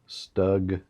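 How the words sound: It is said with an American pronunciation. "I'm an American. That's how I pronounce it"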